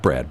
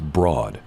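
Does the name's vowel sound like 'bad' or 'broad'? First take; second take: bad; broad. First: The vowel sounds like the one in 'bad'. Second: The vowel sounds like the one in 'broad'. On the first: This is the usual way to say the name. "not Brad" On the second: This is the unusual way to say the name. "it's pronounced Broad"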